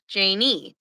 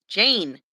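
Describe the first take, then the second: First: Slow, two-syllable Janie; "Janie", drawn out as JAY-nee; pronounced Janie. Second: Jane as one syllable; "Jane", closing on the n; pronounced Jane. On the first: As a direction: say "Janie" slowly with an ee ending. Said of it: "She said it's not". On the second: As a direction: say "Jane" with no ee on the end. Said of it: "not Janie". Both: Shown as a demonstration.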